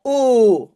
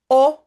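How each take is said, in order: First: Long, drawn-out closed "O"; "O" stretched loud like a double vowel. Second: Short open "O"; "O" as a quick single vowel. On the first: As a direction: hold "O" as a rounded oh. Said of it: "double O". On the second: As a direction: say "O" briefly, as in French "sol". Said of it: "un O". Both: Shown as a demonstration.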